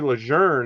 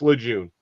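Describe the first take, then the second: First: The name is said with a French-style pronunciation. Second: The name is said with an American-style pronunciation. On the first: This is the new official pronunciation. "something with French um, origination" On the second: This is how everyone has always said it. "nobody's ever said it that way"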